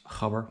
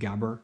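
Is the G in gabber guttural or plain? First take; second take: guttural; plain. First: The G is a rough guttural sound. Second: The G is a plain hard G. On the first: The speaker calls it right. "with hard G, with the guttural G" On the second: The speaker calls it wrong. "as people incorrectly call it"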